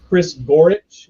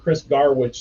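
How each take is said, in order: First: The surname is said with its usual vowels. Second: The surname is said with an altered first vowel. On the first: This is the name's real pronunciation. The speaker calls it right. "is how you pronounce it" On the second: This is a joking nickname kept on purpose. The speaker calls it wrong. "I mispronounced it early on"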